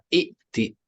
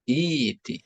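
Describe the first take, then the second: First: A glottal stop follows the first vowel. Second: A y sound follows the first vowel. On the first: "Harusnya hamzah. Maka aslinya adalah i'ti" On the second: "Fi'il amr ata ya'ti adalah iti"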